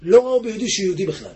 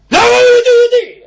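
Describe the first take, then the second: First: Said in the usual way. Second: Loud, high outcry, leaning on ביהודי; preaching outcry. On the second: Acted. Preacher thunders the point at the congregation, loud outcry. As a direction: cry it out to the congregation.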